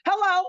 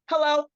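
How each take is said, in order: First: Much higher and louder, pointed hello; insistent hello. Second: A friendly, lightly raised hello to a neighbor; polite hello. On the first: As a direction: call it out again, annoyed at being ignored. Daughter repeats greeting, ignored. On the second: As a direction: greet them nicely the first time. Daughter greets silent neighbors. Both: Retold or imitated.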